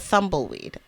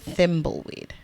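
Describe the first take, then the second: First: The first syllable sounds like 'thum'. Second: The first syllable sounds like 'thim'. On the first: The speaker calls it wrong. "not a thumbleweed" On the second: The speaker calls it right. "a thimbleweed"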